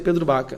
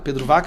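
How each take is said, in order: First: The surname begins with a B sound. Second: The surname begins with a V sound. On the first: The speaker calls it right. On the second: The speaker calls it wrong.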